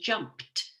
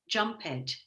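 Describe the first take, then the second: First: It is said in the modern way. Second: It is said in an old-fashioned way. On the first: This is how it is said today. "we've modified the pronunciation to jumped" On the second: This is how it was said centuries ago. "That's how it would have been said hundreds of years ago"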